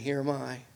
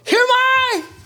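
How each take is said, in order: First: It is said calmly and gently. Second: It is said urgently and with alarm. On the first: An everyday reply to a family member. "I imagine the inflection of his voice was so much different when he heard at first" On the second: A reply at a moment of crisis. "I imagine his voice, ... He knew something was about to happen"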